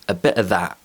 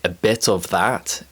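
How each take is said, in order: First: The t in bit is a glottal stop. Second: The t in bit is clearly released.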